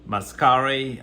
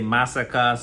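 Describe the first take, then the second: First: It ends with a syllable like 'care'. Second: It sounds like the ordinary word massacre. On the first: Other people pronounce it this way. "Some people say" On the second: This is the speaker's own pronunciation. "I say massacre"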